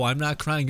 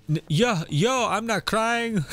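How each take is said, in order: First: Said in the usual way. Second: High, slow playful denial of crying; fake-tough I'm not crying, drawn out; mock denial. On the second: To the viewers, a pretend choked-up denial, high and slow. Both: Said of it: "You're crying".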